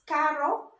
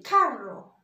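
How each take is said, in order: First: "carro" with one light tapped R; single-R pronunciation. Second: "carro" with a long rolled R; double-R pronunciation. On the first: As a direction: say "carro" with a short R flick. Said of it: "can you please say it". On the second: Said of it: "when you see double R". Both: Shown as a demonstration.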